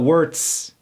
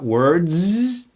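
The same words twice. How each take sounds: First: The word ends with a hissing s sound. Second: The word ends with a buzzing z sound. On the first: The speaker calls it wrong. "not words" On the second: The speaker calls it right. "Do you hear that?"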